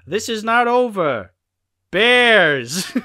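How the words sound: A long pause comes before 'bears', like an afterthought. "there's an awkward pause between over and bears"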